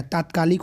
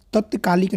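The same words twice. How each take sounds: First: तात्कालिक said with a long "ता" at the start; correct form. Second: तत्कालिक said with a short "त" and no long "आ"; wrong form. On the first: Teacher giving students the right pronunciation, calmly. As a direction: stretch the opening "ता" in तात्कालिक. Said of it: "तात्कालिक होता है". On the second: Teacher showing students the wrong pronunciation, stated plainly. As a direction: clip the first syllable, "तत-कालिक". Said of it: "तत्कालिक नहीं होता है". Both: Shown as a demonstration.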